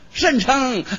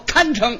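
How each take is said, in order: First: The first syllable is pronounced shen. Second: The first syllable is pronounced kan. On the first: The speaker calls it wrong. "那字不认识啊，他念甚" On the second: The speaker calls it right. "他要说堪称"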